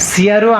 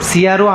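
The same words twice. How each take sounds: Both takes have the same delivery.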